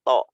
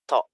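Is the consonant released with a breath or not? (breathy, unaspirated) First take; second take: unaspirated; breathy. First: The consonant is released with no puff of breath. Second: The consonant is released with an audible puff of breath. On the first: The speaker calls it right. "nggak ada nggak ada hamesnya kayak gitu" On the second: The speaker calls it wrong. "kedengeran ada ada ada kayak gitu, ada nafasnya gitu"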